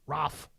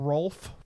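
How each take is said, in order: First: The name is said with an 'a' vowel. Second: The name is said with an 'o' vowel. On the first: This is how someone else said it. "someone said Ralph" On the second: This is the technically correct name. "technically Rolf"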